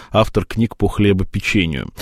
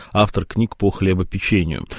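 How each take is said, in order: The two takes are said the same way.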